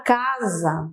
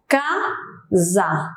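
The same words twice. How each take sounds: First: Said in the usual way. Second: "Casa" in two separate beats, ca, za; split into syllables. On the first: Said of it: "perceba que já tem mais de um impulso". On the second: Shown as a demonstration. Teacher counts impulses for students, "Casa" syllable by syllable. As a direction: break "Casa" apart with a clear pause between syllables. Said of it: "eu tenho dois impulsos aí".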